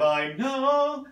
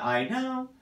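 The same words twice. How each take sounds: First: High I know with spin. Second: High I know, cut short; wrong version. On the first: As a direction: sing it, spinning to the end. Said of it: "got a little bit of spin on it". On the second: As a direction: imitate the unsupported ending. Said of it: "how it's not". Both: Shown as a demonstration.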